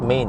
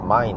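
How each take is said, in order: First: The word rhymes with English 'main'. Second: The word rhymes with English 'mine'. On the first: The speaker calls it wrong. "some people uh, pronounce it incorrectly by saying Main" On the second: The speaker calls it right. "it's mine"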